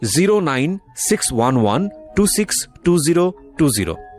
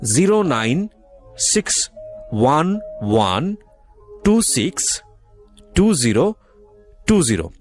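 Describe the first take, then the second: First: The number is read at normal speed. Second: The number is read slowly.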